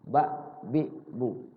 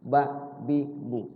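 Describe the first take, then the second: Both takes have the same delivery.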